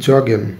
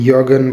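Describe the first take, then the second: First: The word begins with a 'j' sound. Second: The word begins with a 'y' sound. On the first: The speaker calls it right. "এটার উচ্চারণটা জগেন হবে।" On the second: The speaker calls it wrong. "অনেকে ইয়গেন বলে, but that's not right."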